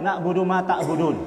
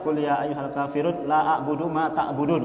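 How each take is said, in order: First: "Na'budu" said in place of "la a'budu", the la dropped; drunk misreading. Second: "la a'budu" recited correctly with the negating la; correct recitation. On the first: Retold or imitated. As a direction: recite it wrong as "Na'budu ma ta'budun". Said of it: "Dia bilangnya apa?". (salah baca "Na'budu" tanpa "la") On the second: Shown as a demonstration. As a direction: read it right: "la a'budu ma ta'budun". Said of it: "Kan begitu mestinya". (bacaan yang benar: "la a'budu ma ta'budun")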